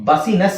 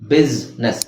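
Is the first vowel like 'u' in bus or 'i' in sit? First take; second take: u as bus; i as sit. First: The first vowel sounds like 'u' in bus. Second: The first vowel sounds like 'i' in sit. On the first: The speaker calls it wrong. "ಬಸಿನೆಸ್ ಅಲ್ವಾ ಅಂತ ಕೇಳಿದ್ರೆ ಇಲ್ಲ" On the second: The speaker calls it right. "ಬಿಸ್ನೆಸ್ ಅಂತ ಹೇಳ್ಬೇಕು ನಾವು"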